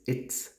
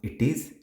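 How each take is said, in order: First: It is said as one contracted word. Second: It is said as two full words. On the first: The speaker calls it right. "it is it's" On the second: The speaker calls it wrong. "it is not it is"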